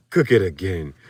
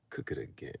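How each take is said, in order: First: Meme voice. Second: Unvoiced whisper of the line; whispered meme voice. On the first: Retold or imitated. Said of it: "same voice that you just read it". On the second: Shown as a demonstration. To viewers, redoing the meme line, whispered. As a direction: breathe it like the meme caption. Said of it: "the voices".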